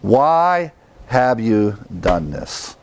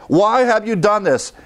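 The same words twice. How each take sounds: First: Slow, level, inward; reflective self-question. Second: High, frightened question; alarmed sailors. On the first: Shown as a demonstration. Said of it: "ask ourselves that question". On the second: Retold or imitated. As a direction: cry it out in alarm. Sailors asking Jonah.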